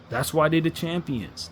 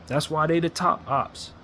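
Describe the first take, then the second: First: Slow, building repeat of That's why they the champions; slow emphatic. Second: Slow, deliberate preaching cadence; slow emphatic. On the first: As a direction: hammer it home slowly. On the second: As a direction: lay it out word by word. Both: Real, not acted. Fan conceding to Boston, slow and emphatic.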